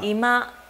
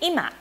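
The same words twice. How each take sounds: First: It uses the Kansai regional pitch accent pattern. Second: It uses the Tokyo standard pitch accent pattern. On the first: "probably they will say" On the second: "So in Tokyo, standard Japanese, we say ima for now"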